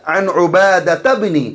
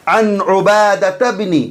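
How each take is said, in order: Both takes have the same delivery.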